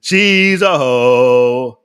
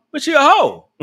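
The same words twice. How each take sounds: First: Drawn out very slowly and lower; slow emphatic verdict. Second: Laughing it out, pitch jumping higher. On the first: Acted. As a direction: stretch every word like a final ruling. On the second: Real, not acted. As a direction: giggle through the words. Laughing while calling her out.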